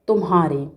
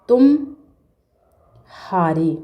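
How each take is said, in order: First: It runs straight on with no gap. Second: There is a gap between tum and haare. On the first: "माँ के बाद शीघ्र ही हा पर पहुँच जाते हैं" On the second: "गैप है"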